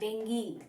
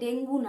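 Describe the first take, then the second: First: The word ends with an 'ee' vowel. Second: The word ends with an 'oo' vowel. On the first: The speaker calls it right. "উচ্চারণটাই ডেঙ্গি" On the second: The speaker calls it wrong. "ডেঙ্গু না"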